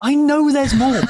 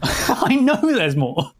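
First: High and loud, teasing. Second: Slow, stretched out and high; slow drawn-out tease. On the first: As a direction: tease it up high. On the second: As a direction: drag every word out slowly. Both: Acted.

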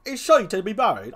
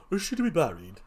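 First: Quick, higher clown voice; first stab at a clown character; trial clown voice. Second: Hurried put-on clown voice; tentative second clown try-out; trial clown voice. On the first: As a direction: test a brisk comic gravedigger. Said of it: "give the first clown something like a". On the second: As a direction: try another quick character voice. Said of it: "what kind of voice should I give him?". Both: Shown as a demonstration.

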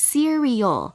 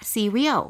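First: "cereal" carefully in three clear syllables, se-ri-al; correct pronunciation. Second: Two-syllable "cereal" as many Thai speakers say it; common wrong reading. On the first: Host teaching listeners the correct word, "cereal" in three syllables. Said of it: "แต่จริงๆต้องออกเสียง". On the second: Host showing listeners the mistaken reading, "cereal" in two syllables. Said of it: "หลายๆคนชอบพูดผิดนะคะ ชอบอ่านว่า". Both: Shown as a demonstration.

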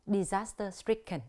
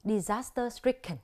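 Both takes have the same delivery.

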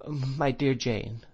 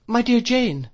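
First: Slow, hesitant, a little abashed; faltering. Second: High, loud startled cry. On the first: Mother abashed by Miss Murdstone's harsh tone, faltering. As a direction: falter slowly over the words. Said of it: "faltered my mother". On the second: Mother reacts to Miss Murdstone's scream, crying out. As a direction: cry out in alarm, pitch leaping up. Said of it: "cried my mother". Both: A narrator's reading.

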